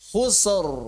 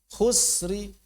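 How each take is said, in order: First: The r is thick, with no trailing vowel. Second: The r is thin, with a faint trailing vowel. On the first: The word is stopped with a full sukun. "Kalau pakai sukun ya la fi khusr" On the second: The word is stopped with raum, hinting the vowel. "Tapi saat dia pakai raum maka ditipiskan"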